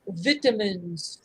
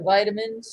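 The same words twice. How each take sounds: First: It is said with a British pronunciation. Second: It is said with an American pronunciation.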